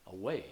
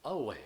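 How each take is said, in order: First: Away with moderate weight on its second syllable; Away, the second syllable only modestly stressed; lighter stress. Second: Away with a heavy, drawn-out second syllable; away, exaggerated stress on -way; greater stress. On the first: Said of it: "stressed or unstressed to a greater". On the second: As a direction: lean hard and long on the -way of away. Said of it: "to a greater or lesser degree". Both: Shown as a demonstration.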